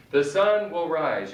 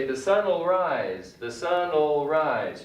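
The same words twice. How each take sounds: First: Said in the usual way. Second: Will reduced to a bare l in The sun will rise. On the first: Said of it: "You can also say". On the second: Shown as a demonstration. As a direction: say sun'll rise, will shrunk to l. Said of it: "You can just do the L L".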